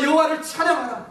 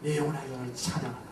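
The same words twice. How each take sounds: First: High, loud call to praise; loud command. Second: Soft, quick murmur of "내 영혼아, 여호와를 찬양하라"; quiet quick command. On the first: Retold or imitated. Pastor ordering his own soul to praise, loud and high. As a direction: shout "여호와를 찬양하라" as a ringing order. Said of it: "저의 영혼에게 이렇게 말했어요". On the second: Shown as a demonstration. Preacher showing the congregation the command, soft and quick. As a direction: say "여호와를 찬양하라" softly and fast, under the breath. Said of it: "오더, 명령하십시오".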